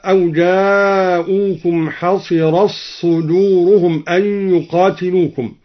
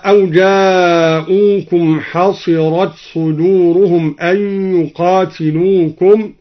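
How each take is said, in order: First: حصرت صدورهم with the ت dropped into a doubled ص; حصرت صدورهم read as ḥaṣiraṣṣudūruhum; t merged into ṣ. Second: Said in the usual way. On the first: Shown as a demonstration. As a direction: glide حصرت into صدورهم on one long doubled ṣ. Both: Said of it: "أدغم الدوري تاء التأنيث في الصاد هكذا".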